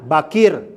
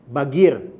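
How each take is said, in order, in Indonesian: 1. Konsonan di tengah adalah bunyi q yang dalam. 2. Konsonan di tengah adalah bunyi g. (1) "mengeja huruf Qaf itu menjadi ga" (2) "jadinya apa? Bagir"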